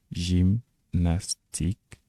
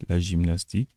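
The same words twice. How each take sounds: First: GYMNASTIQUE slowly split as jim-nas-tik, Turkish style; syllable by syllable. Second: Said in the usual way. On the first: Shown as a demonstration. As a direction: sound out GYMNASTIQUE with pauses between syllables. Mot turc découpé en syllabes. (GYMNASTIQUE détaché lentement, jim-nas-tik, à la turque)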